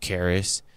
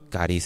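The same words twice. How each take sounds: First: It is pronounced the English way. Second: It is pronounced the Spanish way. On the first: "In English, it's charis" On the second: "charis in Spanish"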